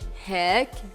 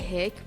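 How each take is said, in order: First: It is said with a heavier, stressed Jordanian pronunciation. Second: It is said with a lighter Syrian pronunciation. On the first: "they say like heck, like, they like stress it out" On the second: "we say hick"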